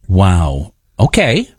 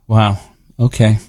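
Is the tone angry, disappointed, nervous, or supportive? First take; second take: supportive; disappointed. First: It is said in a supportive tone. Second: It is said in a disappointed tone.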